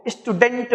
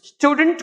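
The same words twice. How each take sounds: First: "स्टूडेंट" said as is-too-DENT; "स्टूडेंट" with the weight moved onto डेंट; Indian learners' mispronunciation. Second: "स्टूडेंट" with स्टू stressed and डेंट reduced; English-style "स्टूडेंट", STYOO-dnt; stress on first syllable. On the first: Retold or imitated. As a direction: add an i before "स्टूडेंट" and give डेंट a full vowel. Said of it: "Bharat के तमाम स्टूडेंट्स". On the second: Shown as a demonstration. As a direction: punch स्टू higher in "स्टूडेंट", no vowel before it. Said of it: "यहां स्टू पे stress है".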